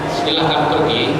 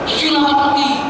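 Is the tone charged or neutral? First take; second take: neutral; charged. First: It is said in a neutral, plain tone. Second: It is said in a marked, charged tone. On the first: It is a plain invitation to leave. "kata-katanya mengatakan silahkan pergi" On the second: The meaning becomes quite different. "kalau nadanya silahkan pergi, jauh beda artinya"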